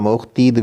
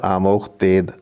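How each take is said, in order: First: The last syllable has an 'ee' vowel. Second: The last syllable has an 'ay' vowel. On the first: "मारूफ भी पढ़ा जाता है" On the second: "पाको हिंद में मजहूल पढ़ते हैं"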